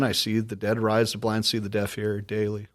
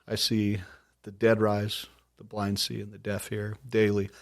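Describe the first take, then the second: First: It is said at normal speed. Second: It is said slowly.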